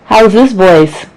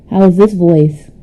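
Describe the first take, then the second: First: Slow, very loud raw mic sound; much louder, drawn-out test of the mic. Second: Loud voice from inside a radio; boosted radio-like sound. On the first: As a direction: ask it slowly through a hot raw mic. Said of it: "The raw version of my voice". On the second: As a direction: test the mic through a loud radio filter. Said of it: "I'm inside of a radio?". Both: Real, not acted.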